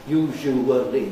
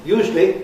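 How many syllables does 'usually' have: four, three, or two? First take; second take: four; two. First: The word is said with four full syllables. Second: The word is squeezed into two syllables. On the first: It sounds old-fashioned. "it sounds completely old-fashioned and wrong to me to say usually. Usually. Four syllables" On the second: It is a very common modern form. "in a very common pronunciation, that's just two"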